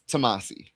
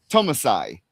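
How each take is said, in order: First: The name ends with an 'ee' sound. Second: The name ends with an 'eye' sound. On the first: The speaker calls it right. "we learned it was Tomasi" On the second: The speaker calls it wrong. "I would always say Tomasai"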